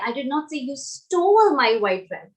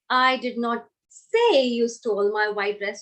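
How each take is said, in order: First: The word stole carries the stress. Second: The word say carries the stress. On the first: Something else was done with it. "So maybe you did something else with it" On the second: It was implied some other way, not said. "if I focus on the word say"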